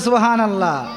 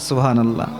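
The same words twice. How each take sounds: First: It is said louder. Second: It is said at normal loudness.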